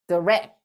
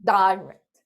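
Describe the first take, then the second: First: "direct" with a weak "duh" start and stress on "rect"; schwa first syllable. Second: "direct" opened with a long "dai", stress on "di"; long I first syllable. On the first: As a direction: drop the first vowel to a quick "duh" in "direct". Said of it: "뒤에 강세가 있을 때는". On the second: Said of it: "앞에 강세가 있는 단어는 direct". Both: Shown as a demonstration.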